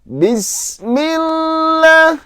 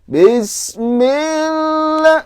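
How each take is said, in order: First: The first vowel is kept short. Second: The first vowel is drawn out long. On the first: The speaker calls it right. "Harusnya Bismillah" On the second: The speaker calls it wrong. "nah itu sudah panjang tuh bi-nya"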